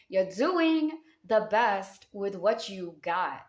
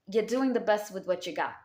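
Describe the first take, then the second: First: "You're doing the best with what you got" drawn out slowly, each word weighted; slow it down so every word lands; slow, emphatic repeat. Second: Said in the usual way. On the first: Shown as a demonstration.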